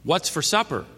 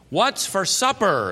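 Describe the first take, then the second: First: It is said somewhat louder than normal. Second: It is said very loudly. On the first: "a little louder" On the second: "very loudly"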